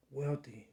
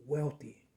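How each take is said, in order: Both takes have the same delivery.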